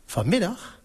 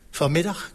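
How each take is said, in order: First: Taken-aback query with a lifted ending; startled question. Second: Said in the usual way. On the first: A narrator's reading. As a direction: echo it back, higher and rising. Startled echo of cardinal's schedule. (verbaasde vraag)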